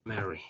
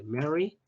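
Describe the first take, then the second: First: "Merry" said softer, falling; low-key "Merry" with a closing fall; contrasted pronunciation. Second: "Merry" lifted at the end; first sample of "Merry", held up for comparison; contrasted pronunciation. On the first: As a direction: say "Merry" softly as the second model word. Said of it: "Un poquito diferente las dos palabras". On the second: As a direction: say "Merry" as a model word, rising. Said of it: "Un poquito diferente". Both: Shown as a demonstration.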